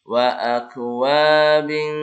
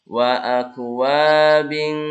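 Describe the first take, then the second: The two takes are said the same way.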